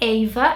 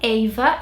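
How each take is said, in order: First: The name is said with a British accent. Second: The same.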